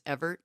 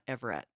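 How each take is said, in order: First: The surname is said with two syllables. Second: The surname is said with three syllables. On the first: The speaker calls it right. "is E V E R T, Chris Everett" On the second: The speaker calls it wrong. "not Everett"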